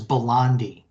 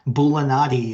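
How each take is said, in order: First: The name is said with three syllables. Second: The name is said with four syllables. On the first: The speaker calls it wrong. "I've always said his name is Belandi in my head" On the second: The speaker calls it right. "that A is right there"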